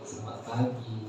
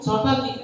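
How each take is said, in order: First: It is said pointedly, remarking on lateness. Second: It is said in a puzzled, confused way.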